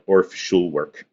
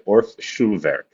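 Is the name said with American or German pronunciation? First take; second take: American; German. First: It is said with an American English pronunciation. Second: It is said with a precise German pronunciation. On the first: "here in the United States, we call it" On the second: "if I was going to use the really like super precise German pronunciation, I would say"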